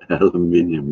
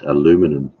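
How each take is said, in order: First: It is said in a non-American pronunciation. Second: It is said in an American pronunciation.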